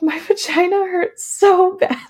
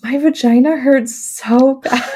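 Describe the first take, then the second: First: Giggled through, much higher; laughing complaint. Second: A slow, drawn-out, aching complaint, higher; slow pained moan. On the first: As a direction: laugh while you complain. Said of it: "I was like". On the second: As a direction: groan it out slowly, still sore. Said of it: "all I could say was". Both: Retold or imitated.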